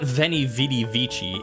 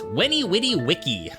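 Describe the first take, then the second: First: Each word begins with a V sound. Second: Each word begins with a W sound. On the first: This is the later church pronunciation. The speaker calls it wrong. "the later like church Latin pronunciation" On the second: This is the original ancient pronunciation. The speaker calls it right. "Back in the day"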